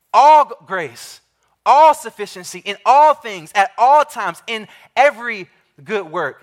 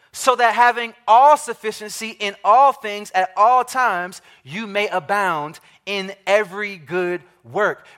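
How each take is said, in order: First: Each all punched louder, slowing on All grace; stress on all. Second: Said in the usual way. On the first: Shown as a demonstration. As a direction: hammer every all and every. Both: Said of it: "Do you hear the emphasis there?".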